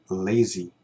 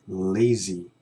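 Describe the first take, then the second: No difference in how they are said.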